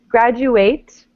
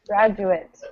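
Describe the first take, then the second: First: The last syllable is full, like 'ate'. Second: The last syllable is reduced, ending like 'it'. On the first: It is the verb. "Graduate is the verb" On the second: It is the noun, the person. "it sounds like I T at the end"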